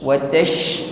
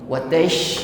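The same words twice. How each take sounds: The two takes are said the same way.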